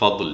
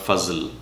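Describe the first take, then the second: First: The middle consonant is a d-like sound. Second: The middle consonant is a z-like sound. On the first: The speaker calls it right. "আর এই দাল হচ্ছে ফাদল" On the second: The speaker calls it wrong. "Not ফাজল"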